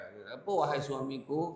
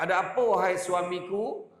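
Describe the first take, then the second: First: Quieter, gentler sweet call to a husband; soft loving wife calling her husband; softer sweet wife. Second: Lightly mocking sweet call to a husband; joking wife playing sweet; teasing wife. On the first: Retold or imitated. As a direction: murmur the greeting tenderly. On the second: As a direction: tease him with a sugary greeting. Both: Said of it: "dia bergurau lah kan".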